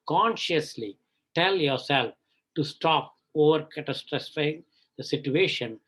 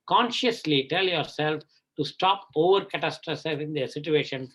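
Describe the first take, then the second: First: The line is read slowly and deliberately. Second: The line is read at a normal pace.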